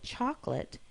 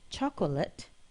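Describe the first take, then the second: First: The middle vowel is dropped, leaving two syllables. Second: Every vowel is said, giving three syllables. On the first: "people say chocolate" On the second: "instead of chocolate"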